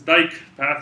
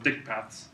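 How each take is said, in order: First: The first word rhymes with 'bike'. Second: The first word rhymes with 'sick'. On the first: The speaker calls it right. "the proper way to pronounce this is dike path" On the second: The speaker calls it wrong. "people often call them dick paths"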